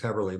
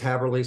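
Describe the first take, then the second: First: The first vowel is the umlaut vowel. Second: The first vowel is read as a plain a. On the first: It is the way the family has always said it. The speaker calls it right. "it's correctly it's Heberly" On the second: It is the spelling-based version people commonly use. The speaker calls it wrong. "I'm just going to say Haberly because that's the way it's spelled"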